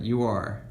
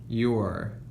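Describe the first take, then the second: First: It is said as two separate full words. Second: It is said as one short contracted syllable. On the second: "we're shortening that to your"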